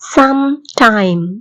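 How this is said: A short pause separates the two words. The speaker calls it right. "இடையில இடைவெளி இருக்குது"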